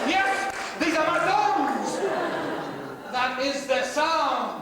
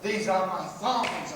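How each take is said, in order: First: Slow, high-pitched, very loud proclamation; triumphant shout. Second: Slow, firm and loud, in usual pitch; slow proud declaration. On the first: Comic hails his broken-in thongs, triumphant shout. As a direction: roar it out in drawn-out triumph. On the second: Comic owning his broken-in thongs, slow and proud. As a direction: declare it proudly, drawing out the words. Same boast repeated, settling down. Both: Acted.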